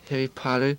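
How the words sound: It is said in an American accent.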